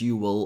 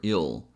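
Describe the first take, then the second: First: Two full words, each clearly pronounced. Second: One quick contracted syllable.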